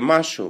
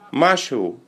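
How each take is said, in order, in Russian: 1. Слово произносится быстро, один слог пропущен. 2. Слово произносится полностью, все слоги.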